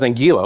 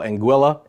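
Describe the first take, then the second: First: The middle syllable does not sound like 'quill'. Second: The middle syllable sounds like 'quill'. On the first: This is how it was learned in childhood. The speaker calls it wrong. "I learned it as Anguilla" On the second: This is how the locals say it. The speaker calls it right. "It's like Quill"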